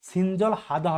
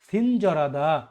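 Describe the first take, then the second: First: The L ends its syllable before a separate H. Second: The L moves on, replacing the H sound. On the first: The speaker calls it wrong. "এটা কিন্তু সিনজল হাদা হবে না" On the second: The speaker calls it right. "এই রিওলটা হিওতের জায়গায় চলে যাবে তাহলে আপনার সঠিক উচ্চারণ কি হবে"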